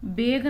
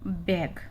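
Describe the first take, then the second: First: बेग with a short e sound; wrong vowel. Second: बैग with the open ae sound; correct vowel. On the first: Teacher shows the wrong vowel in बेग. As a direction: say बेग as the mistaken reading. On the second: Teacher models बैग with the open ae. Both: Shown as a demonstration. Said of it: "बेग नहीं है".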